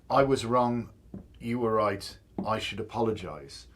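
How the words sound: It sounds like a sincere apology.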